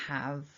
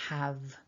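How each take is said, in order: No difference in how they are said.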